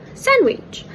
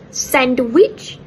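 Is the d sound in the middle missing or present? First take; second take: missing; present. First: The d sound in the middle is dropped. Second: The d sound in the middle is pronounced. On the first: "it becomes sandwich" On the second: "Instead of sandwich"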